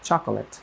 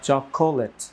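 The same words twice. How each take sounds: First: The middle vowel is dropped. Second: The middle vowel is clearly pronounced. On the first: The speaker calls it right. "নেটিভরা বলেন" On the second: The speaker calls it wrong. "খ এর পরে একটা ও আছে, লেখায় আসে, আমি সেটা উচ্চারণ করেছি"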